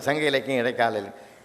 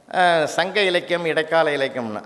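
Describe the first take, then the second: First: Lower, softer repeat trailing behind; imitated echo. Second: Said in the usual way. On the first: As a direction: echo the speech back, dropping away. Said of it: "அதே repeat ஆகுது". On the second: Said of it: "மறுபடியும் சொல்றேன்".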